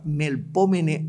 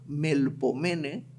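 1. El acento cae en la segunda sílaba. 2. El acento cae en la tercera sílaba.

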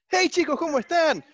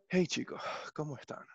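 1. La voz suena alegre y animada. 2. La voz suena melancólica y solemne. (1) "si yo estoy muy feliz, ¿no se han fijado cómo abro los videos" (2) "Va a parecer que voy a, a transmitir el obituario"

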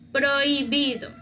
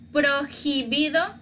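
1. La h es muda en medio. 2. La h se pronuncia en medio. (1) "Aquí la H no se lee, no se escucha" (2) "como decir prohibido, no"

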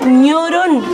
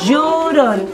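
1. La palabra empieza con un sonido nasal 'ny'. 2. La palabra empieza con un sonido 'y'. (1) "Si no, diría ñorón" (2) "llorón con la G, con la doble L"

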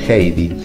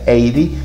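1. La H inicial se pronuncia en voz alta. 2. La H inicial es muda. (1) "Por eso la H se pronuncia así" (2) "si yo lo tuviese que decir en castellano sería Heidi"

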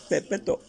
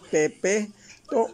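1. Las vocales se mantienen cortas y rápidas. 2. Las vocales se alargan, son largas. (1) "así corto" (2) "No se tiene que alargar porque si es pepeto, ya no suena bien"

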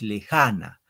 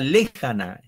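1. El acento está en la segunda sílaba. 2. El acento está en la primera sílaba. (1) "Es lejana" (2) "si Fren le diría lejana"

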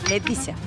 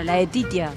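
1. La primera vocal es una 'e' pura. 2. La primera vocal no es una 'e' pura.

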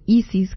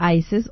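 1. El nombre se pronuncia como en español. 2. El nombre se pronuncia como en inglés.

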